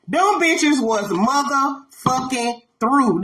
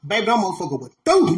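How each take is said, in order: First: "motherfucking through" very slow, word by word; drawn-out emphasis. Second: Said in the usual way. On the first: Real, not acted. Drawn-out repeat for comic emphasis.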